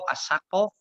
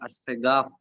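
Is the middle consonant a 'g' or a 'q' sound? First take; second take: q; g. First: The middle consonant is a deep 'q' sound. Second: The middle consonant is a 'g' sound. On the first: This is the original form of the name. "asalnya qaf" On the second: This is how Egyptians say it. "Orang Mesir itu kalau bilang qaf itu gha"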